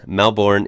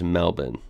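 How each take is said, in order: First: Said in the usual way. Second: Melbourne with a reduced ending, MEL-bin; Australian pronunciation. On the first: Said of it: "Melbourne is said as Melbourne". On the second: Shown as a demonstration. Vlogger showing how Australians say it, Melbourne as MEL-bin. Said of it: "is said as Melbourne".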